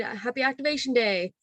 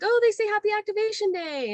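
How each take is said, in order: First: Mildly lifted, friendly well-wishing; congratulatory. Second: Very high, sing-song squeal of delight; delighted translation. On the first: Worker congratulating guests on their activated droid, cheerful. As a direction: offer a cheerful little congratulation. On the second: Worker translating droid beeps for guests, high and delighted. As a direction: coo it high, as if for a child. Voicing what beeping droids say. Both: Retold or imitated.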